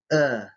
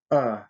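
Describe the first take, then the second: First: "Э" as a soft, very brief vowel; "Э" cut very short, jaw and tongue forward; soft ultra-short vowel. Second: "Э" as a hard, very brief vowel; "Э" cut very short, tongue drawn back; hard ultra-short vowel. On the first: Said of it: "Мягкий, сверхкраткий звук". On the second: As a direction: say "Э" hard, jaw forward, tongue pulled back. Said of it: "Твёрдый, сверхкраткий звук". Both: Shown as a demonstration.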